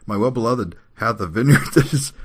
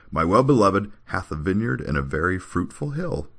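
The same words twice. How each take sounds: First: High, loud recitation breaking into laughter; real laughter leaking into a scripture verse; laughing while reading. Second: Composed, lilting declamation; straight-faced scripture reading. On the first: Real, not acted. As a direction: try to read on and crack up. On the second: Acted. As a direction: recite the verse without laughing. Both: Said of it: "try to read this without laughing".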